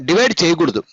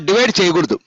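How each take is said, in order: The two takes are said the same way.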